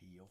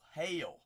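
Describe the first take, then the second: First: The vowel sounds like the one in 'heel'. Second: The vowel sounds like the one in 'hail'. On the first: The speaker calls it wrong. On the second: The speaker calls it right.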